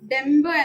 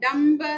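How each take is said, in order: First: The first vowel is coloured toward 'e'. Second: The first vowel is a pure open 'a'. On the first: This is the everyday Malayalam pronunciation. The speaker calls it wrong. "ഡെമ്പ് എന്ന് പറയാൻ പാടില്ല" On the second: This is the Sanskrit pronunciation. The speaker calls it right. "ഡംബ് എന്ന് തന്നെ പറയണം"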